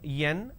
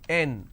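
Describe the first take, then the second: First: It begins with a y sound. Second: It begins directly with a vowel. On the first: The speaker calls it wrong. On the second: The speaker calls it right.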